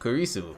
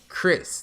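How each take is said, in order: First: The name is three syllables, Japanese style. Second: The name is one syllable, English style. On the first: "the way they say it is like Kurisu" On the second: "a character named uh"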